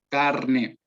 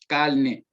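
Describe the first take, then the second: First: An R sound comes before the n. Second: An L sound comes before the n. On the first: The speaker calls it right. "debe decir carne" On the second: The speaker calls it wrong. "una clara sustitución de la L por la R"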